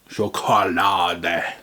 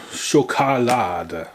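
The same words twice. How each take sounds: First: "Schokolade" slow, in a stern German accent, ending in -deh; mock angry German. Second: "Schokolade" said slowly as sho-ka-LA-da; German pronunciation. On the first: Mocking the German label as angry, slow stern German accent. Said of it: "You don't have to be so angry about it, Germans". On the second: Reading the German word off the pack, slow careful German. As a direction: sound out "Schokolade" syllable by syllable. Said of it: "I don't know what accent this is". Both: Shown as a demonstration.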